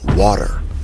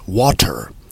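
First: The middle t is flapped like a d. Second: The middle t is a clear t sound. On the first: "in the American accent, they will pronounce it as water" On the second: "instead of pronouncing the word as water"

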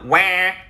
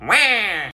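First: The pitch stays level on the vowel. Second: The pitch falls on the vowel.

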